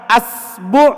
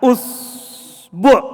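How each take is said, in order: First: The word begins with the vowel a. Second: The word begins with the vowel u. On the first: "kalau dibaca A" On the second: "Kalau dia dibaca U"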